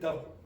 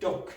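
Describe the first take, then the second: First: The final k sound is left off. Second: The final k sound is clearly pronounced. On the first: The speaker calls it wrong. "you don't want to say duck" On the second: The speaker calls it right. "You want to say duck"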